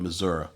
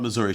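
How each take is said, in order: First: The name is said in a regional way. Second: The name is said in the standard way. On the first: This is how the grandmother said it. "she called it Missouri" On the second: This is not how the grandmother said it. "She didn't call it Missouri"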